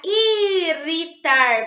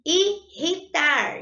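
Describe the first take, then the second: First: "irritar" said with a light tapped R like a single r, the wrong way. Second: "Irritar" slowly, the rr a strong throaty R; strong double R. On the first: Teacher showing pupils the wrong single-R sound, tapped R. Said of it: "vai ser aquele R que vibra". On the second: Teacher showing the correct double R to pupils, strong guttural R. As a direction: stretch "Irritar" with the guttural R in the middle. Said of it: "na palavrinha irritar, eu faço uso dos dois R's". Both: Shown as a demonstration.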